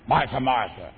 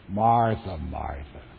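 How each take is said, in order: First: The name is snapped out sharply and harshly. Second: The name is said softly and gently. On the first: The speaker is irritated and scolding. The speaker calls it wrong. "You think he snapped at her?" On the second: The speaker is caring while correcting. The speaker calls it right. "I think rather it came something like this"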